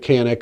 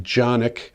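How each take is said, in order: First: The name is said the common English way. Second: The name is said the Turkish way. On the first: "Most people are calling it the Canik" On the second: "because it's a Turkish weapon and that's how they pronounce it"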